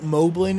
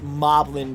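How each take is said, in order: First: The first part does not sound like goblin. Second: The first part sounds like goblin. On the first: The speaker calls it wrong. "some people pronounce it" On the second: The speaker calls it right. "It's actually pronounced Moblin because they're based off of goblins"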